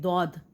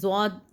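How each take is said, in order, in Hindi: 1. इसकी शुरुआत साधारण d की आवाज़ से होती है। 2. इसकी शुरुआत z जैसी आवाज़ से होती है। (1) "हम इसको दौद नहीं" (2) "बल्कि क्या पढ़ें, जौद"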